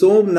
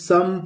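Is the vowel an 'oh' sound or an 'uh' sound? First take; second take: oh; uh. First: The vowel is a long 'oh' sound. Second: The vowel is a short 'uh' sound. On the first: The speaker calls it wrong. "इसे सोम न पढ़ के" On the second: The speaker calls it right. "इसे हम सम पढ़ेंगे"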